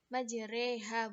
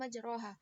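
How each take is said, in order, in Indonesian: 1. Vokal setelah r condong ke e. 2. Vokal setelah r adalah a terbuka yang biasa. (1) "membacanya dengan imalah alif setelah ro"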